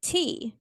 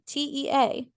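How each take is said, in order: First: Said in the usual way. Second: T E A spelled letter by letter. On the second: Shown as a demonstration. Host spelling tea for listeners, letter by letter.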